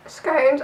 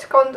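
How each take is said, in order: First: "scones" said with a long o, rhyming with cones; "scones" drawn out to rhyme with stones. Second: "scones" said with a short o, rhyming with gone; "scones" clipped short like "scons". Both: Shown as a demonstration. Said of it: "You can say it's scones or".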